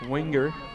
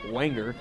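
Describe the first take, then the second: First: The first syllable sounds like 'win'. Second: The first syllable sounds like 'wen'. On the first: The speaker calls it wrong. "I'm going to keep saying that wrong" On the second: The speaker calls it right. "even though it's W E N G E R"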